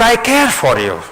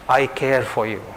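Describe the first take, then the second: First: Put-on high-pitched child's call; storyteller's high voice for a little girl. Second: Said in the usual way. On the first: A narrator's reading. Child calls out to mountain.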